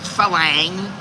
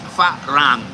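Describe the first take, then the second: First: The second consonant is an L sound. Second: The second consonant is an R sound. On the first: The speaker calls it wrong. "It's not falang" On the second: The speaker calls it right. "It's farang"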